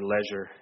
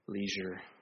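First: The word is said in a British way. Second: The word is said in an American way.

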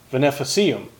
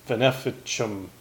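First: The c before i sounds like s. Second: The c before i sounds like ch. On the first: The speaker calls it wrong. "I mispronounced it" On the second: The speaker calls it right. "is how you pronounce it"

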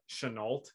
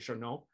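First: The name is pronounced the American way. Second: The name is pronounced the French way.

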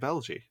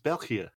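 First: The word is said with an English-style pronunciation. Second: The word is said with a Dutch pronunciation. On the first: The speaker calls it wrong. "You cannot pronounce Belgie properly, because you always say Belgie" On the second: The speaker calls it right. "It's Belgia"

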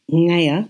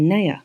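First: The word begins with a non-N original sound. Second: The word begins with a plain N sound. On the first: This is how the sound probably was originally. "instead of saying naya" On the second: Modern speakers have reinterpreted the sound. "They're making it into an N sound"

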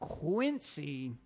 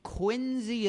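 First: The middle consonant is an S sound. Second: The middle consonant is a Z sound. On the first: The speaker calls it wrong. "Quincy is apparently offensive to the Adamses fans" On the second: The speaker calls it right. "as though it has a Z in it"

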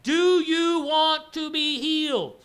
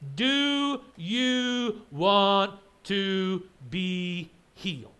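First: The question is spoken at a normal, quicker pace. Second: The question is spoken at a slow, deliberate pace.

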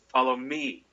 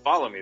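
First: The word me carries the stress. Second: The word follow carries the stress. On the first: The speaker calls it wrong. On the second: The speaker calls it right.

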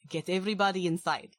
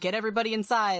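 First: It is said in a put-on character accent. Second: It is said in the speaker's natural accent. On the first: The speaker calls it right. "There we go" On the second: The speaker calls it wrong. "I just didn't even try to do my accent there"

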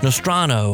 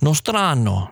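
First: It is said with a plain English pronunciation. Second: It is said with an Italian-style pronunciation.

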